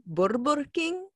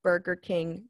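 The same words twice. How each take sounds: First: Put-on "Burger King" in the parents' accent with rolled R. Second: Said in the usual way. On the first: Imitating her parents' name for it, rolled-R accent. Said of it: "because you don't roll the R". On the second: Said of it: "had only ever heard my parents call".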